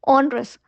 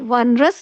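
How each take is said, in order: First: The word begins with an 'on' sound. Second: The word begins with a 'won' sound. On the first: The speaker calls it right. "O N E R O U S ऑनरस" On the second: The speaker calls it wrong. "अब इसे वनरस नहीं pronounce कीजिएगा"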